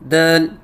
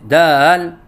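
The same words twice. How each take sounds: First: The word is said with the mouth kept closed. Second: The word is said with a wavering, wobbling sound. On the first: "मुंह बंद करके कहते हैं" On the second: "लहराव के साथ कहते हैं"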